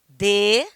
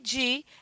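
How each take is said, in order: First: The word is said with strong stress. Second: The word is said with weak stress. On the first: "é um monossílabo tônico" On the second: "é um monossílabo átono"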